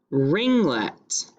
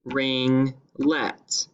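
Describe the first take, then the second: First: Said in the usual way. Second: "Ringlet" as ring, brief pause, let; syllable by syllable. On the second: Shown as a demonstration. Teacher showing two syllables, "Ringlet" split in the middle. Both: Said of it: "the last word has two syllables".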